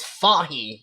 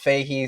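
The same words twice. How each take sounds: First: The name is pronounced the Irish way. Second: The name is pronounced the American way. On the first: This is how people in Ireland say it. "some of our Irish friends will correct and say" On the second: This is how people on this side of the world say it. "everybody on this side of the world says"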